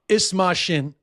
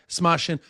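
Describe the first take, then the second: First: The phrase is said at a slower pace. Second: The phrase is said at a fast pace.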